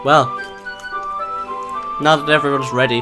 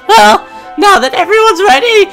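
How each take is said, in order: First: It is said in his normal voice. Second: It is said in a put-on female voice.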